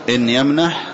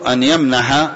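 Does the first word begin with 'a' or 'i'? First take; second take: i; a. First: The first word has 'i', and the verb ends without a vowel. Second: The first word has 'a', and the verb ends in 'a'. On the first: It states a condition. "وبكسر الهمزة وسكون الحاء" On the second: It gives the reason for the prohibition. "بفتح الهمزة والحاء"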